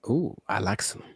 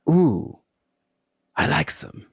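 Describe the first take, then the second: First: It is said with moderate energy. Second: It is said with exaggerated energy.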